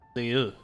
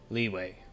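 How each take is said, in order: First: The name ends with an 'oo' sound. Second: The name ends with a 'way' sound. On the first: This is how the foreigners in the game say it. "why do the foreigners pronounce it Liu?" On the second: This is the speaker's own chosen way to say it. "I'm gonna go with Liwei"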